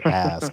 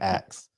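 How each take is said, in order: First: The word ends with an s then a k sound. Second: The word ends with a k then an s sound. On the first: "I don't say ask" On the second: "I say axe"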